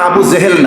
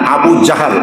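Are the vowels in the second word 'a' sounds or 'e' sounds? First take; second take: e sounds; a sounds. First: The second word is said with 'e' vowels. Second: The second word is said with 'a' vowels. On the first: The speaker calls it wrong. "Abu জেহেল না" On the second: The speaker calls it right.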